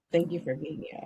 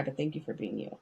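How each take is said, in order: First: Said in the usual way. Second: Sincere and much softer, lower; tender, softer thanks. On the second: Real, not acted. To a moved friend, soft sincere thanks. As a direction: thank you said low and gentle. I'm not trying to make you cry.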